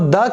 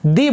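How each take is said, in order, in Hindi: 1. यह शब्द छोटे 'uh' स्वर पर खत्म होता है। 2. यह शब्द लंबे 'ee' स्वर पर खत्म होता है। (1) "इसको द की बजाय दी बोलेंगे" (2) "इसको द की बजाय दी बोलेंगे"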